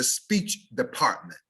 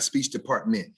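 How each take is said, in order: First: DEPARTMENT as de-PART-mnt, weak ending; unstressed ending. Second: DEPARTMENT as de-part-MENT, full last vowel; overstressed syllables. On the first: Teacher saying where she works, unstressed ending. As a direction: let the end of department go unstressed. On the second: Diction teacher showing the error to avoid, overstressed ending. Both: Shown as a demonstration. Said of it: "You can't hit both syllables".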